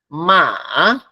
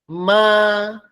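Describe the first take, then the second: First: Said with the tone for the word horse. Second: Said with the tone for the word mother. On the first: It means horse. "significa caballo" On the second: It means mother. "significa mamá"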